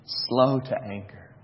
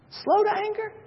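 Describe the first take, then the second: First: Slow, low and soft, every word weighed; solemn reading. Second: Moses amazed. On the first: Shown as a demonstration. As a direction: lay it down gravely. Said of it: "Thirdly, he says". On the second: Retold or imitated. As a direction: gasp it out as Moses, stunned. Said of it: "You can only imagine that Moses is going".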